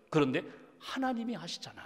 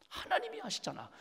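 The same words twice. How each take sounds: First: Said in the usual way. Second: 하나님이 lifted very high, then 아시잖아 falls away softly; high soft reassurance. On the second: Acted. Pastor softly assuring listeners that God knows. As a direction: float it up gently like a comfort. Repeated refrain in sermon.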